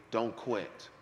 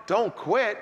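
First: Soft, low "Don't quit"; quiet voice of the Lord. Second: Higher, louder "Don't quit" rising at the end; incredulous echo. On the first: The Lord telling him at the locker room, soft. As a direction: say it gently, almost under the breath. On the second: Preacher echoing God's words back in disbelief. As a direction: repeat it like you can't believe it. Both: Retold or imitated.

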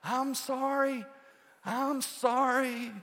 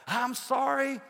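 First: High, slow called-out apology; distant apology call. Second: Calling out sorry again; high called-out apology. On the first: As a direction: call sorry from far off. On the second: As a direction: call sorry from a distance. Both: Retold or imitated. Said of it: "I hear somebody".

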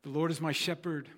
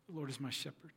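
First: Said in the usual way. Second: Much softer echoed prayer line. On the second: Shown as a demonstration. Congregation echoing the pastor's psalm line, softly. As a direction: repeat it back hushed like the congregation. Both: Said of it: "asked them to echo the words back to me".

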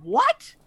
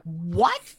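First: Much higher, louder squeak of disbelief; shocked double take. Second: Mild double take. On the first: Retelling a movie moment to co-hosts, high shocked yelp. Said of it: "They just said". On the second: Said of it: "I'm like". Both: Retold or imitated.

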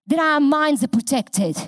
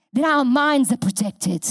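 Both takes have the same delivery.

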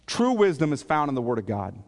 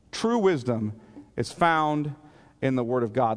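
First: Said in the usual way. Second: "True wisdom", pause, "is found", pause, "in the Word of God"; deliberate phrasing. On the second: Real, not acted. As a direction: break it after "wisdom" and after "found", letting each part land. Repeats the point phrase by phrase.

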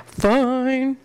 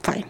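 First: Drawn-out, higher-pitched mock concession; FINE held long in playful protest; mock grudging. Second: Said in the usual way. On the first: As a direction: stretch FINE into one long, higher word. Repeats it in exaggerated way, laughs.

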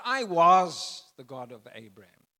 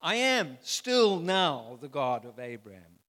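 First: "was" punched loud as the rejected reading; wrong tense, stressed. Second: "still" hit hard and loud, falling tune; the correction, loudly stressed "still"; stress on "am still now". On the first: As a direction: loudly stress "was", then drop it. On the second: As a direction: drive home "am still now". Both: Shown as a demonstration.

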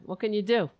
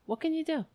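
First: Said in the usual way. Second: "can" jumps much higher, light and sing-song; higher pitched. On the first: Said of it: "What can you do? (second take)". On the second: Shown as a demonstration. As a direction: lift the whole "What can you do?" way up. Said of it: "What can you do? (first take)".

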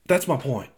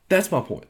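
First: Said in the usual way. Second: "That's" hit higher and harder; emphatic repeat. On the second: Real, not acted. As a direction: stress "That's my point" up high.

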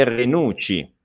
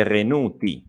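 First: "Renucci" with a double ch sound; deliberate "Renucci", ch not T; ch version. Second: "Renuti" with a plain T sound; deliberate "Renuti", T not ch; T version. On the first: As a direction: contrast "Renucci" as re-NOOT-chee. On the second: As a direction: contrast "Renuti" as re-NOO-tee. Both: Shown as a demonstration. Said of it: "la differenza è questa".

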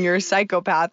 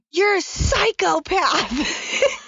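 First: Said in the usual way. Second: High, drawn-out mock scream, no real volume; play-scream the accusation at your husband, stretched out; hammed-up high-pitched screech, held back in loudness; retold mock scream. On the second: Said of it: "screaming, "You're a psychopath".

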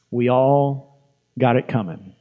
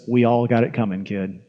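First: Slow and deliberate, stretching "all"; slow, weighty repeat. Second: Low, soft, understated gunfighter line; old gunfighter. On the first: Real, not acted. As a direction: let "We all" hang before finishing. Preacher repeats the line to congregation. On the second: Retold or imitated. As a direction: say it low and quiet, dropping off on "kid". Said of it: "looks off in the distance and he says".

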